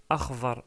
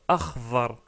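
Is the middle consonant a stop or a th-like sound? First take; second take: th-like; th-like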